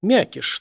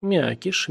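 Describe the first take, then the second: First: High, emphatic jab with a falling end; sobering sharpness. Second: Offended echo, pitched up; taken aback. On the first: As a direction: throw out the nickname pointedly. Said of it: "с приятной протрезвляющей резкостью". (с резкостью) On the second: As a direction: repeat the nickname with mild hurt. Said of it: "даже обиделся". (обиженно) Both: A narrator's reading.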